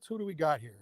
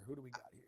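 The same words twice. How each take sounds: First: Said in the usual way. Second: Much softer, lower muttered repeat; quiet repeat. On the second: Real, not acted. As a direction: say it again under your breath. Repeats question, then mutters it.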